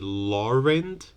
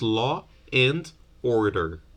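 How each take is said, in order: First: An R sound links law and and. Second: No R sound links law and and. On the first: "In non-rhotic varieties... they might say" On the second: "in rhotic varieties"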